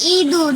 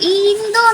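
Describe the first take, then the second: First: The first vowel is nasalized with no n. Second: A full n consonant is heard after the vowel. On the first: The speaker calls it right. "না ইঁদুর" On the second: The speaker calls it wrong. "ইন্দুর না"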